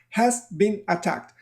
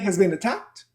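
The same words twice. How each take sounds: First: Each word is said separately and fully. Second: The words run together in one reduced group. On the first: The speaker calls it wrong. "But nobody speaks like that in English" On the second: The speaker calls it right. "People will say has been attacked"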